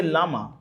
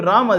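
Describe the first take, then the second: First: "Lama", Rama said with an L; Chinese R-less pronunciation. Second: Said in the usual way. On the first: Shown as a demonstration. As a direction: swap the R for an L, "Lama". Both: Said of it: "they have no Ra in their language".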